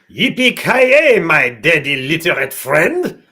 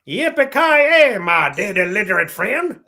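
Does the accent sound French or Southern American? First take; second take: French; Southern American. First: It is said with a French-sounding accent. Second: It is said with a Southern American accent.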